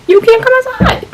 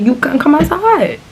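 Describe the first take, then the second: First: Much higher squeaky mock voice for the strict mom. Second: Said in the usual way. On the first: Retelling how the friend's mom kept her inside, squeaky high mock voice. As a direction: lampoon the mom's rule in a high squeak.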